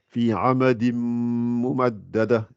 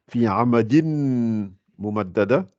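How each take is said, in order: First: The N merges into a held nasal M. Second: The N sound is clearly heard before mumaddada.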